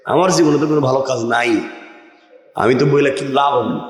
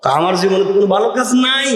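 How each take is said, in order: First: Thinking to himself. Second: Quick protest rising toward the end; protesting to friends. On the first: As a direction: run it by quickly in a lowered tone. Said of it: "এখন আরেকজন চিন্তা করছে". (নিচু স্বরে দ্রুত মনে মনে বলা) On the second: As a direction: say it aloud, voice climbing to a high finish. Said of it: "দুই বন্ধু বলছে". (গলা চড়িয়ে বন্ধুদের কাছে আপত্তি) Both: Retold or imitated.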